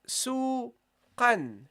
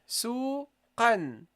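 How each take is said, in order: First: The word ends with an n sound. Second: The word ends with an n sound.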